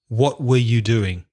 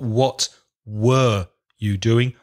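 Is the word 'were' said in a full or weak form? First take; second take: weak; full. First: The word 'were' is reduced and weak. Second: The word 'were' is said fully and clearly. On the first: The speaker calls it right. "It also becomes weak" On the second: The speaker calls it wrong. "Not what were you doing"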